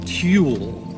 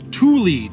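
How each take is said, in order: First: The name sounds like the word 'tool'. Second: The name does not sound like 'tool'. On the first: The speaker calls it wrong. "Tulle sounds like a fancy tool" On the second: The speaker calls it right. "that's how Google pronounced it"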